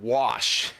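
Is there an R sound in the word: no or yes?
no. It is said without any R sound. "There's like a mysterious R in wash"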